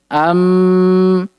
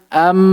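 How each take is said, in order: First: The nasal sound is held long. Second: The nasal sound is kept short. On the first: The speaker calls it wrong. "Maka keliru ketika kita panjangkan" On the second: The speaker calls it right. "bukan dipanjangkan"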